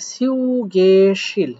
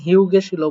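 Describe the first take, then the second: First: The word begins with an S sound. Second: The word begins with an H sound. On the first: The speaker calls it right. "এটা হিউ না হয়ে হবে হচ্ছে সিউ" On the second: The speaker calls it wrong. "অনেকে অনেক রকম করতে পারেন হিউ গেছিল বলতে পারেন"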